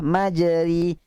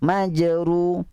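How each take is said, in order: First: The vowel after r is a plain i. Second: The vowel after r is a rounded u. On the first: "Baris bawah" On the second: "Baris depan"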